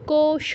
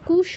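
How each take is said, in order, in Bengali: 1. প্রথম স্বরধ্বনিটি 'au' ডিফথং। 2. প্রথম স্বরধ্বনিটি সাধারণ 'u' ধ্বনি। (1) "কৌশ দুটোই ওকার আছে" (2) "কুশ বলবো না কেউ"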